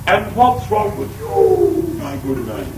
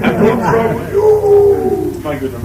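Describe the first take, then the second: First: A hint of posh royal lady; lightly voiced posh visitor, slow; mild mock genteel tone. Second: Much higher, slow mock-posh lady; exaggerated posh royal lady, drawn out. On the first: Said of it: "That's the way they talk". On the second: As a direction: ham up a posh Kelvinside lady. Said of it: "You think they come from Kelvinside?".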